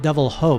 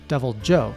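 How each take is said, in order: First: The second word begins with an H sound. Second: The second word begins with a J sound. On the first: The speaker calls it wrong. "Not pronounced like the Spanish" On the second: The speaker calls it right. "but Devil Joe"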